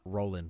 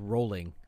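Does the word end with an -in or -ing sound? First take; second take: -in; -ing. First: The word ends with an -in sound. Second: The word ends with an -ing sound. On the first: The speaker calls it right. "not rolling" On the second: The speaker calls it wrong. "I thought it was rolling"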